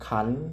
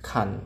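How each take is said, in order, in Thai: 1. พยางค์นี้ออกเสียงเป็นเสียงขึ้น 2. พยางค์นี้ออกเสียงเป็นเสียงต่ำ (1) "เสียงจัตวาก็ขัน" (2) "ไม่เอกขัน"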